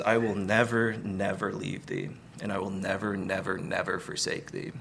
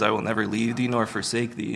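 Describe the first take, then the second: First: God's promise spelled out with repeated "never"; emphatic repetition. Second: Said in the usual way. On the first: Shown as a demonstration. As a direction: press each "never" home. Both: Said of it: "it's not as emphatic as it was initially given".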